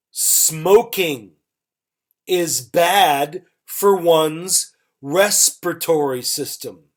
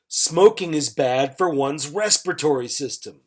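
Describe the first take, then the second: First: Measured teacher's example with gaps between phrases. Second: Said in the usual way. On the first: Shown as a demonstration. Teacher models example, then repeats it faster.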